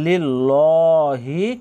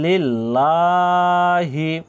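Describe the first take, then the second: First: The vowel after the second l is short. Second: The vowel after the second l is drawn out. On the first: The speaker calls it wrong. "এখানে লিল্লাহি কিন্তু বলবেন না" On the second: The speaker calls it right. "এখানে এক আলিফ পরিমাণ টানতে হবে"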